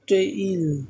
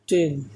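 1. স্বরধ্বনিটি 'e' থেকে 'i'-তে গড়িয়ে যায়। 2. স্বরধ্বনিটি একটি সাধারণ ছোট 'e' ধ্বনি। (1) "এটা উচ্চারণ হবে টেইল" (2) "নট টেল, এটা হবে না"

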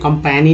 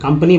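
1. बीच का स्वर 'ae' जैसा बोला जाता है। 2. बीच का स्वर छोटे 'uh' जैसा बोला जाता है। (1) "कंपैनी नहीं बोल रहे हैं" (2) "ए का जो उच्चारण है वो अ के रूप में"

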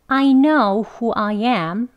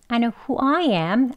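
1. I가 두 번 다 강조되고 천천히 읽어요. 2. 앞부분은 약하고, who I am이 강조돼요. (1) "I 다 그냥 강조 두 개 다 해서 천천히" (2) "앞에를 weak 발음으로 … I는 강조하고요"

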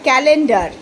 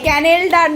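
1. l ধ্বনিটি n ধ্বনির আগে আসে। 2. n ধ্বনিটি l ধ্বনির আগে আসে। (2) "ক্যানেলডার নয়"

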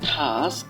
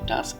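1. শেষের k ধ্বনিটি শ্বাসযুক্ত kh ধ্বনি। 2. শেষের k ধ্বনিটি সাধারণ ও অল্পপ্রাণ। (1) "এখানে সর্বশেষ যে সাউন্ড আসবে সেটা খ সাউন্ড আসবে" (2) "আজকের পর থেকে এটি টাস্ক না"

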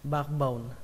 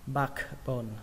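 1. Âm k ở giữa được lướt qua. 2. Âm k ở giữa được phát âm rõ ràng. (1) "để đọc nhanh thì chúng ta không cần âm ca nữa" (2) "khi kết hợp lại chúng ta đọc là backbone"

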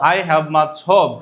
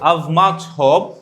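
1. 'I have' শব্দ দুটো পূর্ণভাবে বলা হয়। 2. 'I have' শব্দ দুটো একটি সিলেবলে সংক্ষেপ করে বলা হয়।

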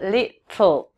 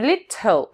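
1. Звук t выпускается через боковые стороны языка. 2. Звук t выпускается полностью перед l. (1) "а именно little, тл" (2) "не little"

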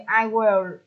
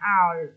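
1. Hai từ đầy đủ, will được phát âm rõ ràng. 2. Một âm tiết rút gọn, will giảm thành l. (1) "Ví dụ như I will" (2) "chúng ta đọc là I'll"

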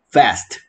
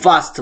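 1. 모음은 영어 같은 소리, 'ae'처럼 들려요. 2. 모음은 독일어 같은 소리, 'ah'처럼 들려요.

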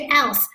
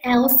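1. 单词 aisle 中发了 s 音。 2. 单词 aisle 中没有发 s 音。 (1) "不是else" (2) "那个s 不发音"

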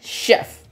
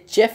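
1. शब्द 'sh' ध्वनि से शुरू होता है। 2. शब्द 'ch' ध्वनि से शुरू होता है। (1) "शेफ कहते हैं" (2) "ये चेफ नहीं होता है"

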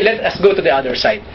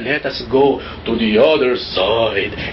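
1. Sinabi ito sa mahinahon at kaswal na tono. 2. Sinabi ito sa madilim at nakakatakot na tono.

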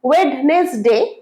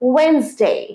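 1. এটি তিনটি শব্দাংশে উচ্চারিত হয়। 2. এটি দুটি শব্দাংশে উচ্চারিত হয়। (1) "এটা তো ভুল" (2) "রাইট"

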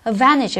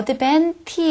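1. n 뒤의 t는 생략합니다. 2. n 뒤의 t는 분명히 발음합니다. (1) "n 다음에 t 발음이 생략되면서" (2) "advantage가 아니라"

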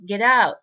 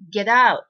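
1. tの音は、次の母音にスムーズにつながります。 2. tの音は、次の母音にスムーズにつながります。

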